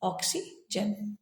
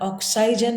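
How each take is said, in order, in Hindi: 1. बीच का स्वर एक छोटी 'i' ध्वनि है। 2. बीच का स्वर एक लंबी 'eye' ध्वनि है। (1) "हम कहते हैं ऑक्सीजन" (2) "इसका उच्चारण ऑक्साइजन नहीं करते हुए"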